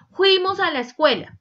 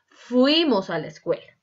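First: "Fuimos a la escuela" high and loud, mocking the error; wrong pronunciation. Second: Said in the usual way. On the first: Shown as a demonstration. Teacher mimicking the mistake students make, high and loud. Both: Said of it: "no es".

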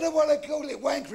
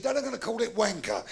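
First: High-pitched insistence; stubborn child. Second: Said in the usual way. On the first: Acted. Boy insisting on donkey's name, high and stubborn. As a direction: dig in like a pestering kid.

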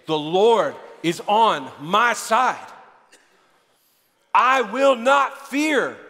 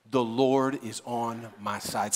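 First: Very slow, building proclamation; emphatic declaration. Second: Low, slow, subdued affirmation; quiet declaration. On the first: Preacher urging the congregation to say it again, slow and building. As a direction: draw out each word, building in force. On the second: Preacher modelling a daily affirmation for listeners, low and measured. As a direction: say it softly and deliberately. Models line for congregation to repeat. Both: Shown as a demonstration.

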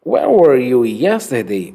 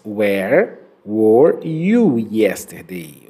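First: Said in the usual way. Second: "Where were you yesterday?" said very slowly, each word drawn out for repeating; slow careful model reading. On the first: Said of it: "Vamos lá então". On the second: Shown as a demonstration. Teacher models a tongue twister slowly for students. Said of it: "nesta frase nós temos até um trava-línguas".

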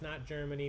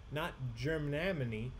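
First: Said in the usual way. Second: "Germany" read as spelled wrong, stretched to "Germanamany"; misspelling read aloud. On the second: Shown as a demonstration. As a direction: sound out the botched spelling of "Germany", slowly. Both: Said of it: "Nobody spelled Germany right".

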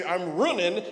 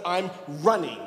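First: I'm running with running said as runnin', final g dropped; rustic runnin' with the g swallowed; dropped g twang. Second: Said in the usual way. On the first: Shown as a demonstration. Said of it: "they'd say". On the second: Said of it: "instead of".

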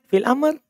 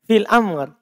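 First: Fil amr with the tune rising at the end like a question; imitating the Selayar rising tune on fil amr. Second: Said in the usual way. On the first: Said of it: "nadanya orang Selayar begitu". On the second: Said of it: "Bertanya itu atau menjawab?".

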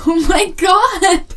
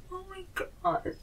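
First: High, slow excited shout; loud. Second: High, slow hushed gasp; suddenly hushed. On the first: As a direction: scream it in starstruck awe. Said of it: "I'm sorry I'm being loud". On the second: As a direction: drop to an awed hush. Hush after loud outburst. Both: Acted.

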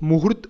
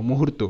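First: মুহূর্ত ending on a bare t; final vowel dropped. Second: মুহূর্ত ending in a clear "to"; final o sounded. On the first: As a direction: say মুহূর্ত as "muhurt", no closing o. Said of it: "মুহূর্ত হয়ে যাচ্ছে". (শেষে ও ছাড়া, হসন্ত ত দিয়ে মুহূর্ত) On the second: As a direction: say মুহূর্ত as "muhurto", with closing o. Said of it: "তাই এখানে আমরা ও নেব". (শেষে ও উচ্চারণ করে মুহূর্ত) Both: Shown as a demonstration.

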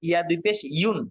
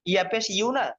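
First: ইউন with a clear nasal n at the end, rising; double pesh iun. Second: ইউ with no n at the end, rising; ইয়া পেশ said as plain ইউ, cut off without a nasal; single pesh iu. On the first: Teacher answering a student's question, ending ইউন with n. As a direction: say ইয়া দুই পেশ as ইউন, ending on the n. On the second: Teacher contrasting it with the double pesh, ইউ with no n. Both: Shown as a demonstration. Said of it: "ইউন নাকি উন?".

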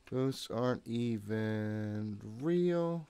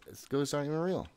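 First: Slow, stretched self-reassurance; drawn out. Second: Said in the usual way. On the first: Real, not acted. Player reassuring himself, slowly drawing it out. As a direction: drag every word out to calm down.

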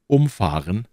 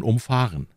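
First: "umfahren" stressed on "um". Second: "umfahren" stressed on "fahren". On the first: Teacher quoting "umfahren" with the stress on "um". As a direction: punch the "um" in "umfahren". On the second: Teacher contrasting "umfahren" with the stress on "fahren". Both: Shown as a demonstration. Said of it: "wie man oft sagt".

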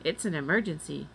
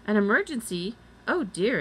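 First: Said in the usual way. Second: Raised, louder exclamation with a light squeak; high squeaky exclamation. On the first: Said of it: "said Annie". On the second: A narrator's reading. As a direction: exclaim as a mildly squeaky woman. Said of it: "exclaimed the woman in a high, squeaky voice".

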